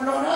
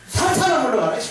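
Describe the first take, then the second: First: It is said quietly and weakly. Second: It is said loudly and boldly.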